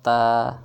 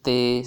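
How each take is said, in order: First: It ends in an open 'a' vowel. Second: It ends in an 'e' vowel. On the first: The speaker calls it right. "बल्कि कैसे पढ़ा जाए" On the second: The speaker calls it wrong. "Urdu तलफ़्फ़ुज़ से परहेज़ करें"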